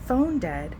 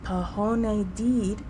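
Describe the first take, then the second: First: The words are pronounced with their normal vowels. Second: The words are pronounced with distorted, altered vowels. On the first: The speaker calls it right. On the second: The speaker calls it wrong.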